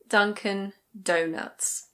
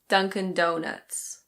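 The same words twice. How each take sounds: First: It is said with a British accent. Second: It is said with an American accent. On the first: "In British English, this is Dunkin' Donuts" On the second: "In American English, it's Dunkin' Donuts"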